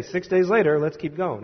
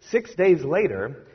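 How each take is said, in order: First: "Six days later" tossed off and dropped, then moving on; careless skim. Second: "six days later" drawn out slowly with a rising end; weighted reading. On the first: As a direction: brush past "Six days later, let's keep going" like a reader who doesn't care. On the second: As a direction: linger on "six days later," letting it lift as a clue. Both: Shown as a demonstration. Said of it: "you don't want to just say".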